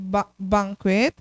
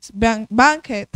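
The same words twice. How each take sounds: First: Tentative "banquet" with a rising, questioning end; unsure pronunciation. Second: "banquet" said again, firmer, with a falling end; corrected pronunciation. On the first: Teacher to class, unsure how to say "banquet". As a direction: tries "banquet" haltingly, unsure how it sounds. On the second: Teacher to class, fixing her own "banquet". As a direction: settle on "banquet" with a confident fall. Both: Shown as a demonstration.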